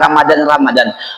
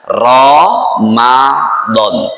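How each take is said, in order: First: It is said the plain Indonesian way. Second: It is said the Arabic Quranic way. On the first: The speaker calls it wrong. "nggak usah ikut artis" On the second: The speaker calls it right. "sesuai dengan cara Allah menyebutnya"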